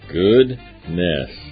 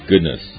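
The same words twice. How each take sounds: First: It is said in a drawn-out Alabama accent. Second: It is said plainly as one word. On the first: "If you speak Alabama, it's goodness" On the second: "I thought it was one word. I thought it was goodness"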